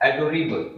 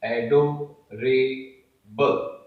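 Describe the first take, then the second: First: Said in the usual way. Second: "adorable" slowly split as एडो, रे, बल; syllable by syllable. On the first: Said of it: "आइए मैं इसे यहां समझाता हूं". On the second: Shown as a demonstration. Teacher explaining how it is written, "adorable" in slow separate syllables. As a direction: pause between each piece of "adorable". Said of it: "जब आप इसे लिखते हैं".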